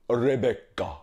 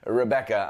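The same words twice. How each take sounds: First: The name is said in a put-on character voice. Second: The name is said in a plain, ordinary voice. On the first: "I have to say Rebecca" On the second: "I can't just say Rebecca"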